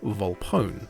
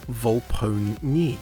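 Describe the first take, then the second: First: The final e is silent, giving two syllables. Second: The final e is sounded, giving three syllables. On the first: "with the E silent" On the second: "where the E is pronounced as a separate syllable"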